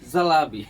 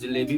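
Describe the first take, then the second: First: The middle vowel sounds like 'ah'. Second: The middle vowel sounds like 'ay'. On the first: "जलेबी का तरीका थोड़ा सा change कर" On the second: "आप जलेबी भी बोल सकते हैं"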